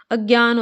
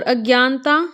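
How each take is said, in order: First: अज्ञान ending on "gyaan", no "-ta"; correct form demo. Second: अज्ञानता with an added final "-ta"; wrong form demo. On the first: Teacher gives students the correct form, अज्ञान ending on n. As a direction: say अज्ञान, stopping at the n. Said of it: "होता है". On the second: Teacher shows students the mistaken form, अज्ञानता with extra "taa". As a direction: say अज्ञानता, ending on a long "taa". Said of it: "नहीं होता". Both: Shown as a demonstration.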